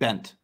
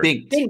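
First: The name is said without any G sound. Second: The name is said with a hard G sound. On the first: The speaker calls it wrong. "it's just a silent G, right?" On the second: The speaker calls it right. "All right, my bad"

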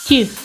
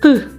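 First: The consonant is said soft, palatalized. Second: The consonant is said hard, without softening.

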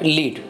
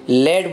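First: The vowel is long, like in need. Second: The vowel is short, like in bed. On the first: The speaker calls it wrong. "Not लीड" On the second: The speaker calls it right. "यहाँ पे हमने लेड बोला है"

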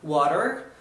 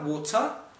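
First: It is said with an American accent. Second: It is said with a British accent. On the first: "Eu utilizei um sotaque americano para falar água" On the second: "mas você pode utilizar a forma britânica"

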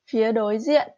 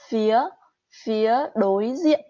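First: The phrase is said quickly and smoothly. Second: The phrase is said slowly and carefully.

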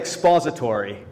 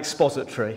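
First: The word is said in an American accent. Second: The word is said in a non-American accent. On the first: The speaker calls it right. "when you say expository" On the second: The speaker calls it wrong. "it sounds so much better than expository"

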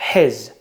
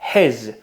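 First: The h is breathed out with strong force. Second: The h is breathed out lightly and simply. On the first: "Один видихаємо" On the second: "один говоримо з закінченням"

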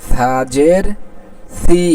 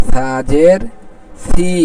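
No difference in how they are said.

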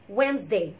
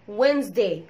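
No difference in how they are said.

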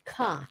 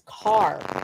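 First: The final R sound is dropped. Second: The final R sound is clearly pronounced. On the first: The speaker calls it wrong. "not ka" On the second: The speaker calls it right. "it's car"

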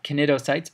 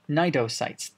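First: The initial C is sounded aloud. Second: The initial C is silent. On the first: The speaker calls it wrong. "these are not cnidocytes" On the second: The speaker calls it right. "but cnidocytes"

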